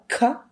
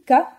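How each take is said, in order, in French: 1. Le k est relâché avec une bouffée d'air. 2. Le k est relâché sans bouffée d'air. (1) "les sons percutifs avec aspiré, avec un peu d'air" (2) "les sons percutifs"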